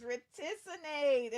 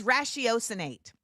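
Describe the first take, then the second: First: "reticinate" as reh-TISS-uh-nate, four syllables; mispronounced word. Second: "ratiocinate" as rash-ee-OH-suh-nate, five syllables; corrected pronunciation. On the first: Streamer misreading the word of the day, "reticinate" as reh-TISS-uh-nate. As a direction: say "reticinate" slowly with a short TISS in the middle. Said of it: "My bad". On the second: Streamer correcting the word of the day, "ratiocinate" as rash-ee-OH-suh-nate. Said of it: "I did it right". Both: Shown as a demonstration.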